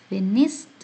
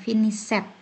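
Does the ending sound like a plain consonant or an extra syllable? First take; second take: consonant; extra syllable. First: The ending is a plain consonant sound. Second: The ending adds an extra 'it' syllable. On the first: The speaker calls it right. "Yang ada" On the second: The speaker calls it wrong. "tidak ada worked atau finished"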